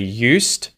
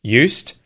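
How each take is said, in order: The two takes are said the same way.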